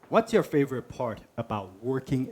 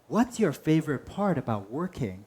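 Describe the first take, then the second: First: The question sounds flat and uninterested. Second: The question sounds warm and genuinely interested. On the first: The asker is not really curious. The speaker calls it wrong. "That's the right tone? No" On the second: The asker truly wants to know. The speaker calls it right. "Oh, yeah, I just really want to know"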